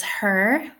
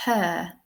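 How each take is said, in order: First: Her with the Irish R pronounced at the end; Irish "her", R sounded heavily; Irish accent. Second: Her without the R, a long "huh" in RP; King's English "her", R dropped; received pronunciation accent. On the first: Teacher gives the example word, Irish accent with sounded R. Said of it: "in my Irish accent". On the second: Teacher shows how the King would say it, RP accent. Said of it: "think about the King of England". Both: Shown as a demonstration.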